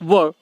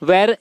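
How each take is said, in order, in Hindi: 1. स्वर 'ur' जैसा सुनाई देता है। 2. स्वर 'air' जैसा सुनाई देता है।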